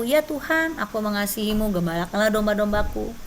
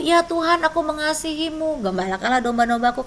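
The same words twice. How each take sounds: First: Calm first reply of Peter; a lightly voiced Peter answering; Peter answering, plain first time. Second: Pressing the reply, a bit urgent; heightened pleading Peter; Peter's third, more pleading answer. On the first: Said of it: "Petrus tiga kali". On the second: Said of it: "Ditanya lagi yang ketiga". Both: A narrator's reading.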